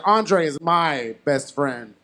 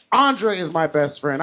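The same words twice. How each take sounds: First: MY drawn out slowly, then a break; stress on MY. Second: Said in the usual way. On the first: Retold or imitated. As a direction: lean slowly and firmly on "my". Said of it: "I made it clear at the table".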